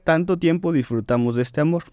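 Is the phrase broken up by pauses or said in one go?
one go. The phrase flows without any pauses inside it. The speaker calls it right. "Esa es una frase co- completa"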